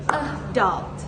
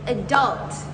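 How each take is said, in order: First: It is said in a British accent. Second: It is said in an American accent. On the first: "In British, it is adult" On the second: "While in American, adult"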